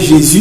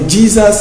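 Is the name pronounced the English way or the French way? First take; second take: French; English. First: The name is pronounced the French way. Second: The name is pronounced the English way.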